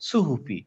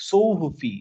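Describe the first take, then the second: First: সুহুফি with a light, thin সু; unrounded light সু in সুহুফি; light sin vowel. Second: সৌহুফি with a round, heavy সৌ; heavy sad vowel. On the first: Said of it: "সিন থাকতো তাহলে বলতাম সুহুফি". (হালকা সিনের সুহুফি) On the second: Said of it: "পুরোপুরি সৌ না বলে সৌহুফি". (গোল ঠোঁটে ভারী সৌহুফি) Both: Shown as a demonstration.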